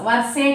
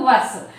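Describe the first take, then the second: First: The word ends with an added vowel sound. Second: The word ends on the s sound. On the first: The speaker calls it wrong. "వర్సే కాదు" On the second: The speaker calls it right.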